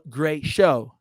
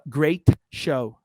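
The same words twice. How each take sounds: First: The final T of great is dropped. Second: The final T of great is clearly pronounced. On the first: The speaker calls it right. "A gente fala great show" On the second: The speaker calls it wrong. "Ao invés de falar great show"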